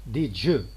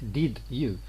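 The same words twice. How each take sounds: First: The d and y merge into a j sound. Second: The d and y are said as separate sounds. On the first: The speaker calls it right. "You obtain something like did you" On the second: The speaker calls it wrong. "what you obtain in native speaker speech is not did you"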